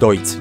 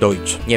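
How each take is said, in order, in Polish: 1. Nazwa kończy się dźwiękiem 'ts'. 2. Nazwa kończy się dźwiękiem 'tsh'. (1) "Ta marka to jest Deutz" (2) "nie Deutsch"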